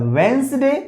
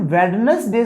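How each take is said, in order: First: वेंसडे with the first D silent; correct pronunciation. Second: वेडनेसडे with the first D fully sounded; wrong pronunciation. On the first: Teacher giving guys the right way, वेंसडे with silent D. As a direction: say वेंसडे in two parts, WENS-day. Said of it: "हम लोग इसका pronunciation वेंसडे". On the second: Teacher showing guys the wrong way, D pronounced in वेडनेसडे. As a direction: say वेडनेसडे in three parts, WED-nes-day. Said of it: "सही नहीं होता है". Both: Shown as a demonstration.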